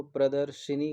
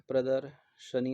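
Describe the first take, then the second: First: प्रदर्शिनी with an audible 'shi'; wrong 'i' vowel. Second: प्रदर्शनी slowly, parted as pradar, sha-nee; correct 'sha' vowel. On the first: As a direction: put a short 'i' after 'sh' in प्रदर्शिनी. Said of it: "प्रदर्शिनी गलत है". (प्रदर्शिनी, बीच में 'शि') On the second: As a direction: use 'sha', never 'shi', in प्रदर्शनी. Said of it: "प्रदर्शनी होता है". (प्रदर्शनी, धीमे, 'श' अलग करके) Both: Shown as a demonstration.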